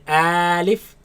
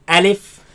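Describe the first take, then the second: First: The word is drawn out slowly. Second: The word is said quickly and short. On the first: The speaker calls it wrong. "Do not say alif" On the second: The speaker calls it right. "Say alif. / pronounce it fast"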